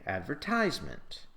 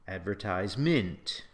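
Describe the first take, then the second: First: It uses the American stress pattern. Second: It uses a stress pattern neither variety uses. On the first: "if you're an American, you'll say" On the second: "you will never say"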